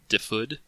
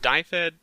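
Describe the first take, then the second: First: The name is said closer to the Welsh pronunciation. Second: The name is said with an American pronunciation. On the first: The speaker calls it right. "it's closer to Dyfed" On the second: The speaker calls it wrong. "the American butchering pronunciation of it"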